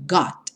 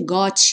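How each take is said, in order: First: The final t is held closed, barely released. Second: The final t is strongly released with weight. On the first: The speaker calls it right. "bem fechadinho" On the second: The speaker calls it wrong. "mas nada de got, got, né? Ela não tem esse peso como nós damos em português"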